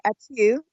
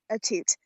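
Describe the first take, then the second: First: The final T sound is silent. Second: The final T sound is pronounced. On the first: A fancier, French-style way of saying the name. "they do this the second T silent" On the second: The way the name's owner has always said it. "I've always said it as a toot"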